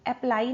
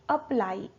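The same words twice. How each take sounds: First: "apply" with a full a as in apple; wrong first vowel. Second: "apply" opening on a weak uh; schwa first vowel. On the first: Teacher shows the mistake to avoid, full first vowel. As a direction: say "apply" as ap-ply, both syllables full. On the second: Teacher models correct apply, schwa at the start. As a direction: say "apply" as uh-PLY. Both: Shown as a demonstration. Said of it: "apply नहीं".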